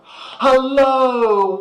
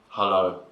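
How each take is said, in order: First: The greeting sounds warm and friendly. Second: The greeting sounds cold and unfriendly. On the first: The visitor is welcome. "That's not frigid" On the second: The visitor is not welcome. "That's a very frigid welcome"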